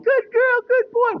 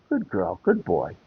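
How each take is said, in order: First: The praise sounds loud, gushing and overexcited. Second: The praise sounds quick, soft, calm and loving. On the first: This gets the puppy worked up and jumping again. The speaker calls it wrong. "super gratuitous praise" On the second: This rewards the puppy without overstimulating it. The speaker calls it right. "quick, calm, nice and soft and, you know, loving tone of voice"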